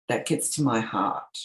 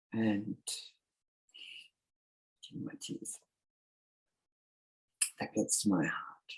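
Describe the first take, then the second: First: Said in the usual way. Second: Choked up and fading; holding back real tears; teary. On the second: Real, not acted. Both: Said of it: "sorry, I get teary".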